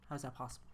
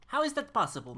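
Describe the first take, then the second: First: Said in the usual way. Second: "How is that possible" higher and louder, punched on "how"; exasperated outburst. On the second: Real, not acted. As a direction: blurt it out in disbelief, much louder. Repeats the question louder.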